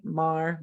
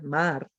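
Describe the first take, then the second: First: MAR with a smooth English r, not rolled; English pronunciation. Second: MAR with a pure ah and rolled r; Spanish pronunciation. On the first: Teacher contrasts vowel R's, English pronunciation. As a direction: say "Mar" with one r-coloured vowel. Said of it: "Vowel R's". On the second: Teacher contrasts vowel R's, Spanish pronunciation. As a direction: lower "mar", tapping the final r. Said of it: "we would roll those R's". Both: Shown as a demonstration.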